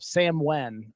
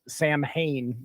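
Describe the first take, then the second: First: The name is said unlike its spelling. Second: The name is said as its spelling suggests. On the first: This is how the name is actually pronounced. "it's pronounced that way" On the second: This is how the name looks when read. "it looks like Samhain when you look at that"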